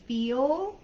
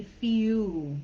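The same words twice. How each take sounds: First: "feel" with a clear final L; American "feel". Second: "feel" with the L turned into a vowel, like "few"; New Zealand "feel". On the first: Teacher contrasts accents, "feel" with American L. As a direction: sound the L at the end of "feel". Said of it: "like we do in American English". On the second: Teacher imitates Kiwi L, "feel" as drawn-out "few". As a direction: stretch "feel" into a vowel ending, no L. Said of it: "sounds more like a vowel". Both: Shown as a demonstration.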